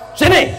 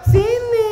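First: It is said in a harsh, rough voice. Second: It is said in a soft, gentle voice.

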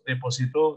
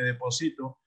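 First: The stress is on the last syllable. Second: The stress is on the third syllable. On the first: Someone deposited something in the past. "depositar en pasado" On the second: I deposit something now. "depositar en presente"

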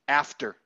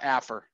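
First: The T sound is clearly pronounced. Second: The T sound is left out. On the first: The speaker calls it right. "No, after" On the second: The speaker calls it wrong. "you cannot forget the T in after. It's not affer"

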